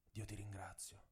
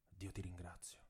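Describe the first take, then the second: First: Barely audible, breath-thin thanks; faint thread of voice. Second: Even fainter repeat, almost gone; faint thread of voice. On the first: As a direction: whisper the thanks to God, spent. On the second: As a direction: let the thanks fade out. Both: A narrator's reading. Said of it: "con un filo di voce".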